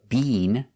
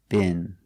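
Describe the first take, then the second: First: The vowel is a long E sound. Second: The vowel is a short I sound. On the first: This is how it is said in England. "We don't use the long E" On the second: This is how it is said in America. "We make the short I"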